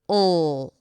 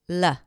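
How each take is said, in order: First: The L has tension at the back of the tongue. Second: The L is made with the tongue tip only. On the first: "Dark L" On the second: "A light L sounds like this"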